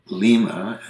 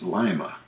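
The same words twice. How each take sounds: First: "Lima" as "LEE-ma"; "Lima" opening like "lee"; Peruvian city pronunciation. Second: "Lima" as "LIE-ma"; "Lima" opening like "lie"; Ohio pronunciation, like the bean. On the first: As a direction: say "Lima" with a long "ee". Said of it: "it's Lima". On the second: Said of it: "Just like the bean?". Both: Shown as a demonstration.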